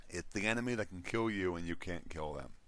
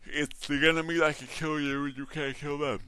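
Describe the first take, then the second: First: Said in the usual way. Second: Yawning. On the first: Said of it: "I'm sorry if you didn't hear that". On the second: Real, not acted. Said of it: "I'm sorry if you didn't hear that, 'cause I yawned".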